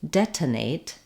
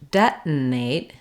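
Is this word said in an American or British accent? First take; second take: British; American. First: It is said with a British accent, full T. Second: It is said with an American accent, unreleased T. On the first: "So in British English" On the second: "In American English"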